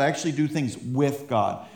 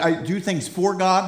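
First: "with" set apart and emphasized; stress on WITH. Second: "for" punched louder than the rest; stress on FOR. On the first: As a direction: lean on the word "with" to answer the contrast. Contrasts with God against for God. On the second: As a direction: hit the word "for" to set up a contrast. Contrasts for God with with God. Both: Shown as a demonstration.

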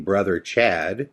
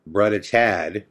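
First: Slow "Brother Chad" with a lifted end, lightly voiced; a hint of the little sister calling "Brother Chad"; Katie's way of saying it. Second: Slow, drawn-out "Brother Chad" in a put-on little-sister voice; slowly calling "Brother Chad" in a different voice; imitating Katie. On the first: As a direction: draw out "Brother Chad" gently, rising on "Chad". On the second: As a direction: stretch out "Brother Chad" the way she calls him. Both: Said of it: "that was her way of saying".

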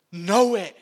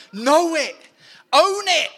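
First: Know it, with Know punched loud; firm command on Know; stress on know. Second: Know it and Own it much higher and louder; loud urging. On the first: Preacher urging church to know their identity, firm. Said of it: "I put the actually there". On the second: Preacher rallying church to own their identity, shouting. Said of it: "But actually". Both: Shown as a demonstration.

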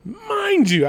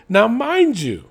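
First: Mind you, pitched way up; a sharp high "mind you"; high emphatic repeat. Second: Said in the usual way. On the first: Shown as a demonstration. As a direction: say "mind you" again much higher. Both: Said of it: "repeats with big pitch jump".

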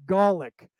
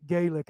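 First: Gaelic said with a broad first vowel, like Gaulic; Scottish pronunciation. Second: Gaelic said with a long "ay" first vowel; Irish pronunciation. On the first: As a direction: say Gaelic as "GAH-lick", the Scots way. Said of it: "it's just an accent". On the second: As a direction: Gaelic with "Gael" as its first syllable. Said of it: "So the Scots speak Gaelic, not Gaelic". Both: Shown as a demonstration.

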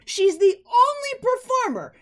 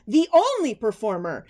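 First: "only" stretched out and pitched high; emphatic, high, lengthened "only"; stress on only. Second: Said in the usual way. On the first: Real, not acted. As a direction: lean hard on "only", drawing it out. Repeats it with more emphasis.

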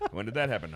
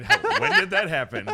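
First: Said in the usual way. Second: Laughing. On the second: Retold or imitated. Laughing quote.

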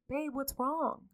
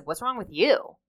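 First: Soft, slow, raised voice, rising at the end; gentle concern. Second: Mildly confrontational question; accusing tone. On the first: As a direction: ask tenderly, drawing it out. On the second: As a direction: demand it as a reproach, without softness. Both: Shown as a demonstration. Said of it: "The tone of which somebody says something matters".

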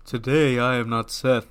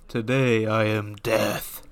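First: Said in the usual way. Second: Slow deathly voice; grim reaper voice. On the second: Pretend. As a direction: speak as Death, slow and grave.

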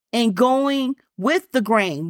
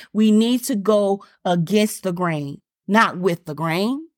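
First: Said in the usual way. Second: NEED and NOT pressed hard in the repeat; emphatic repeat. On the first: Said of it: "Let me say that one more time". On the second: Shown as a demonstration. Preacher repeating for the back rows, stressing NEED and NOT. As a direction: drive it home a second time. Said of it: "Let me say that one more time for the people in the back".

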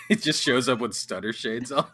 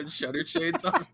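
First: "stutter shades" said by mistake; slip of the tongue. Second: "shutter shades" corrected with a laugh; self-correction. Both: Real, not acted.

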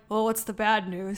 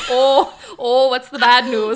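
First: A hint of Minnesota accent. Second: Loud, hammed-up Minnesota accent; mock the Minnesota accent, laughing and loud. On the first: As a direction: slip lightly into a Midwestern Minnesota voice. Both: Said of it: "like, a Minnesota accent".

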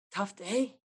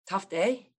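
First: Softer, gentle question with a rising end; deferential. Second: Said in the usual way. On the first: Shown as a demonstration. Salesman to an agitated customer, softly deferential. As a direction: ease into it with respect. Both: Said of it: "But with the deference".

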